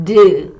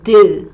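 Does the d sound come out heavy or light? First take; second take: heavy; heavy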